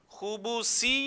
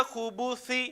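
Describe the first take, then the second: First: "خبوثی" with a hissed S, khu-boo-see; drawn-out "خبوثی" ending in a sharp see; hard S. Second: "خبوثی" with a soft unvoiced TH, khu-boo-thee; drawn-out "خبوثی" ending in a gentle thee; soft tha. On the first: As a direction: say "خبوثی" slowly with S in place of TH. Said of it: "سا کو نرمی سے پڑھنا ہے". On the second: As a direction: say "خبوثی" slowly, tongue between teeth. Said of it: "نرمی سے پڑھنا ہے". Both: Shown as a demonstration.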